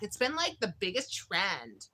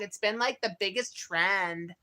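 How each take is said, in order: First: It is said in a put-on, imitated voice. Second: It is said in a natural, ordinary voice.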